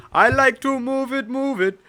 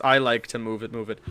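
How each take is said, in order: First: Put-on high, loud Indian-accented singsong. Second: Said in the usual way. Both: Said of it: "Move It in Indian accent".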